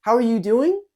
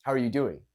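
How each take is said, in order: First: High and loud, tune climbing on "doing"; upward, questioning tone. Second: Said in the usual way. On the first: Shown as a demonstration. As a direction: lift "doing" sharply into a question. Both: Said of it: "the tonality is going upward".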